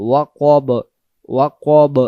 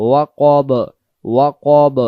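Both takes have the same delivery.

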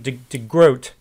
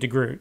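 First: The vowel sounds like the oa in boat. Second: The vowel sounds like the oo in boot. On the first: The speaker calls it right. "I'll try during this video to call him DeGroat" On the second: The speaker calls it wrong. "I mispronounced DeGroat's name, and I was calling him DeGroot"

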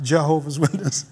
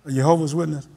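First: Jehovah begins with an English J sound. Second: Jehovah begins with a Y sound, Dutch-style. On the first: This is the usual English way to say it. "and not" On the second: This is how a Dutch speaker says it. "you notice how she said"

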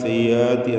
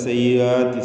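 First: The glottal stop is dropped and slurred over. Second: The glottal stop is dropped and slurred over.

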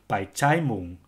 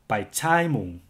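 First: The two vowels merge into one short a. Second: The two vowels merge into one long a. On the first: "with short a" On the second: "with long a"

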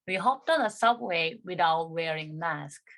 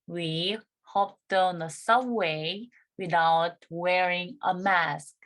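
First: The sentence is spoken quickly, at a fast pace. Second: The sentence is spoken at a normal, careful pace.

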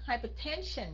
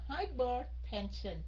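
First: The stress is on the third syllable. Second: The stress is on the second syllable. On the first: The speaker calls it right. "Phải nhấn cái dần hypertension" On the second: The speaker calls it wrong. "cổ đọc là hypertension"

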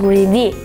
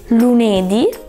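First: The stress is on the final syllable. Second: The stress is not on the final syllable. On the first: The speaker calls it right. "the right way to say it is lunedì" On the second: The speaker calls it wrong. "lunedì without an accent"

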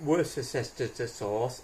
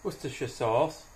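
First: It is said with an American pronunciation. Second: It is said with a British pronunciation. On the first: The speaker calls it wrong. "Not Worcestershire sauce, as they say in America" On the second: The speaker calls it right. "You have to say that right"

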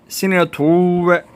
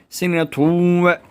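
The two takes are said the same way.

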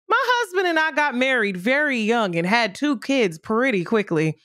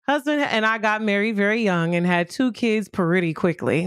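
First: It is read in a show-announcer voice. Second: It is read in a normal voice.

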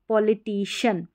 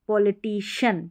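The two takes are said the same way.

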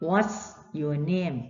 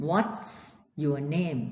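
The two takes are said the same way.

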